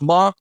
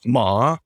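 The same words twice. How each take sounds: First: The pitch stays high and level. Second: The pitch dips low then rises. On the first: It means mother. "first tone is ma, and that means mother" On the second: It means horse. "third tone is ma, which means horse"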